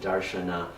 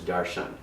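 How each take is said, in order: First: The word ends with a final vowel sound. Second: The word ends without a final vowel sound. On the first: This is the Sanskrit form of the word. "the Sanskrit pronunciation makes it darshana" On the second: This is the form used in modern Indian languages. "In uh, the Indian languages, it is the very same word as darshan"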